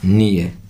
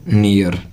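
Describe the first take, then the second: First: The word ends without any r sound. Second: The word ends with an audible r sound. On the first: The speaker calls it right. "इसका सही उच्चारण होता है नीय" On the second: The speaker calls it wrong. "जो कि हमारा उच्चारण बिल्कुल गलत है"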